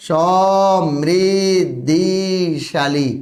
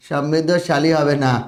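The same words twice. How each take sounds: First: সমৃদ্ধিশালী stretched very slowly, the ি sound held; teacher slowly modelling সমৃদ্ধিশালী; slow correct spelling. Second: Said in the usual way. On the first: Shown as a demonstration. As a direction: draw out সমৃদ্ধিশালী for the class. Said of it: "বানানটা হবে কি বলো তো?".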